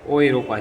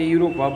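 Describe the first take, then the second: First: The word begins with an 'oy' sound. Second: The word begins with a 'yoo' sound. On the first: The speaker calls it right. "पढ़ा उसको ओ यूरोपा जाएगा" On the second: The speaker calls it wrong. "लिखा है यूरोपा"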